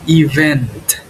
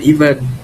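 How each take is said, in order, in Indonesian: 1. Konsonan akhir terdengar jelas. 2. Konsonan akhir lemah atau dihilangkan. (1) "Yang benar kayak gini" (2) "Bukan event"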